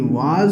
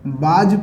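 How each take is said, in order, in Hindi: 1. यह शब्द W ध्वनि से शुरू होता है। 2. यह शब्द B ध्वनि से शुरू होता है। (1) "बल्कि वाज होता है" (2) "कुछ बच्चे इसको बाज पढ़ते हैं, चूंकि गलत है"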